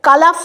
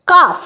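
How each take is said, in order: First: কালাফ with the l sounded, as a wrong example; কালাফ spoken with the l, marked as wrong; wrong pronunciation. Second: কাফ with a silent l; কাফ, the l left silent; correct pronunciation. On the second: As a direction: say কাফ without the l. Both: Shown as a demonstration. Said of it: "কালাফ তো বলি না".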